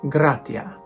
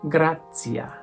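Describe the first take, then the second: First: The t is said like a plain t. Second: The t is said like a ts sound.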